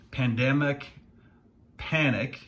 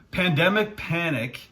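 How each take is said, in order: First: Said in the usual way. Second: Higher, louder playful repeat; amused tongue-twister retry, pitched up. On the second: Shown as a demonstration. Finance vlogger retries an accidental tongue twister after laughing, playfully. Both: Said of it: "say that ten times fast".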